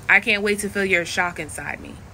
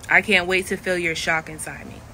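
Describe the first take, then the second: First: It is said in the speaker's natural voice. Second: The same.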